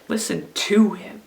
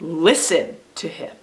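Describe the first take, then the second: First: The stress falls on the word 'to'. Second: The stress falls on the word 'listen'. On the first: The focus is on taking the message in. "what about if we stress the second word?" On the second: The focus is on the act of listening. "Here's when we stress the first word"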